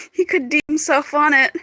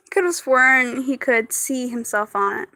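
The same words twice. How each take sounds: First: "D" said as the letter dee in place of "see"; misread word. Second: "see" with an s sound, not dee; corrected reading. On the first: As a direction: read "D" like the letter name, dee. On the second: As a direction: read "see" clearly as see. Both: Real, not acted. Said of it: "Not D, it's C".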